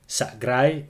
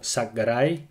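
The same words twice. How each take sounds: First: The middle consonants are said together. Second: A short vowel separates the middle consonants. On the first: "words with clusters" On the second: "without clusters, but with the letter ø"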